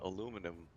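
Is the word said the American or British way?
American. It is said the usual American way.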